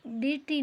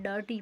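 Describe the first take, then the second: First: डर्टी said as "de-ti", with an e vowel; wrong reading. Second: Said in the usual way. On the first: Shown as a demonstration. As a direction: misread डर्टी letter by letter, as "derti". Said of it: "नहीं पढ़ेंगे". (डर्टी को "डेर्टी" जैसा गलत पढ़कर) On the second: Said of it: "इसको हम डर्टी पढ़ेंगे".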